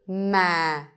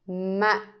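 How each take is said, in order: First: The pitch stays low and falls. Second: The syllable is cut short and abrupt. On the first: "the line is telling you to go low" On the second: "The dot tells you to make it short"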